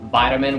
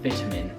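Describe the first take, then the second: First: It is said with an American accent. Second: It is said with a British accent. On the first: "Americans pronounce it vitamin with the T pronounced as D" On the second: "British people pronounce this vitamin"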